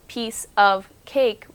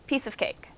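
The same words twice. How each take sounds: First: Said slowly with no extra sounds between words. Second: Said quickly with small sounds added between words. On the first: "if you say it slow, piece of cake, we don't do that" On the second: "But quickly, piece of cake. We kind of add a new sound"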